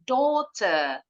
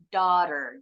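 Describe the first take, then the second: First: Rounded vowel, with no final r sound. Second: Open 'ah' vowel, with the final r sounded. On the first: "Kalau orang Inggris" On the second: "Kalau orang Amerika bilangnya daughter"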